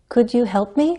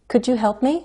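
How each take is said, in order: No difference in how they are said.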